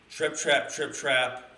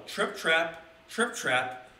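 First: Quick, light hoofbeat beats; bouncy trip trap. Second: Slow, spaced hoofbeat reading; slow trip trap. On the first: Acted. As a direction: Trip Trap tapped out quick and punchy, a bit louder. Goat crossing, voiced as quote. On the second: A narrator's reading. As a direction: Trip Trap drawn out slowly, word by word. Reading the goat's hoofsteps.

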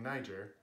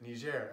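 First: Niger said as NY-jer; English pronunciation. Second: Niger said as nee-ZHAIR; French pronunciation. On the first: What news personalities were saying before, English pronunciation. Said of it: "they were saying Niger". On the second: How news personalities now pronounce it, French pronunciation. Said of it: "now they pronounced it". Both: Shown as a demonstration.

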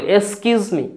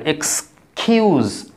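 First: এক্সকিউজ said as eeskuz, dropping the k; mock the wrong eeskuz me; imitating learners saying eeskuz me; imitating a mispronunciation. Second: এক্সকিউজ said slowly with a clear ks and kiu; teacher modelling এক্সকিউজ slowly; careful pronunciation. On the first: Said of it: "আবার কেউ বলে". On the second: Shown as a demonstration. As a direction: draw out এক্সকিউজ, eks-kiuz, slowly. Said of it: "আমার উচ্চারণগুলো খেয়াল করবেন।".

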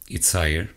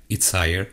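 No difference in how they are said.

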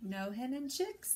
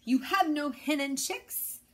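First: Sighing. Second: Higher and louder gruff demand; mayor demanding an answer, gruff. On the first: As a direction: let it out on a sigh of loss. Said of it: "the Gallito sighed". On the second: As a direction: press the rooster hard. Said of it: "growled Don Pepe". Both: A narrator's reading.

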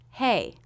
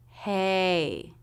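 First: Said in the usual way. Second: "hey" stretched from open eh into ee; long "hey" with a dropped-jaw start; drawn-out diphthong. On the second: Shown as a demonstration. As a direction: slowly glide through both halves of "hey". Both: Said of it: "drop your jaw enough for the first half".

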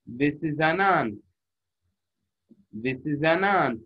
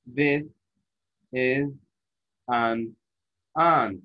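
First: Slow, words run together as one; linked smoothly. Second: Each word said separately with pauses. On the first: Teacher showing students linked reading, slowly. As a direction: glide the words into one phrase. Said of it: "وكأنه كلمة واحدة". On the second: Teacher reading each word apart to show the mistake. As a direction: break it into single separate words. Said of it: "قريت كل كلمة لحالها". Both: Shown as a demonstration.

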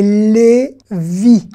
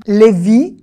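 First: "Lévi" drawn out as "lé", then "vi"; syllable by syllable. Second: Said in the usual way. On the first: Shown as a demonstration. Teacher sounding out a surname, slow split "Lé... vi". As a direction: stretch "Lévi" very slowly into two separate syllables.

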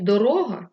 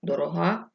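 First: Дорога stressed on the second syllable, do-RÓ-ha; stress on middle syllable. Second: Дорога stressed on the last syllable, do-ro-HÁ. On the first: Storyteller giving the original word, middle-syllable stress. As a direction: hit the middle vowel of дорога, loud. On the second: Storyteller showing the changed word, last-syllable stress. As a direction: hit the final vowel of дорога. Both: Shown as a demonstration. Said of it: "замість дорога".

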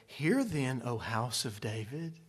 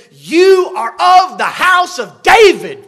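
First: Low, soft, solemn scripture reading; churchy reading. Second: Loud, high, slow prophetic shout; indignant shout. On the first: Preacher showing how we read it in church, subdued. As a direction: read it dutifully and quietly, voice dropping low. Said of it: "This is the way we read it". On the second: Isaiah shouts at Ahaz, the house of David. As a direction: shout each word in rebuke. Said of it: "he shouts at him and he says". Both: Shown as a demonstration.

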